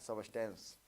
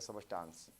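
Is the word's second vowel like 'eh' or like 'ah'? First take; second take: eh; ah. First: The second syllable has an 'eh' vowel. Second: The second syllable has an 'ah' vowel. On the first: "इसको सबस्टेंस भी बोलते हैं" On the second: "कोई कोई सबस्टांस पढ़ता है"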